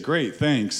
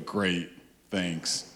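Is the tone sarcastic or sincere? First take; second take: sincere; sarcastic. First: The tone sounds sincere and pleased. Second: The tone sounds sarcastic and annoyed. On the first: The speaker is genuinely grateful. "if you say" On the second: The speaker is not actually grateful. "Completely different message, right? And we love sarcasm"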